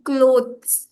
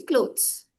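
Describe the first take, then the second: First: "clothes" drawn out with the TH sounded; the wrong, fully spelled-out "clothes"; over-pronounced "clothes". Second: "clothes" said simply, like "cloze"; easy "clothes", no weight on the TH; simple pronunciation. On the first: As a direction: stretch "clothes" slowly, every consonant pronounced. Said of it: "We are not pronouncing T and H". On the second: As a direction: say "clothes" with a very soft, almost silent TH. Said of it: "We are actually saying simply clothes". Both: Shown as a demonstration.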